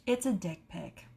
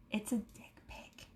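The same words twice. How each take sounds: First: Low-key, softly voiced; subdued, confiding voice; deadpan repeat. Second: Barely voiced whisper; confiding, scandalized whisper; hushed reveal. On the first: Repeats the reveal, now voiced. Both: Real, not acted.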